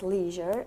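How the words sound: It is said with an American pronunciation. "an American says"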